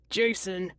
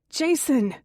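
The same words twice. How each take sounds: First: Pleading. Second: Higher-pitched call to someone inside. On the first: George with hands up to gunman, mild pleading. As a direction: mildly appeal to him by name. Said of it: "George pleads". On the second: Narrator calls to Jason inside the house, calling out. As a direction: call the name out urgently. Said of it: "I call out". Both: A narrator's reading.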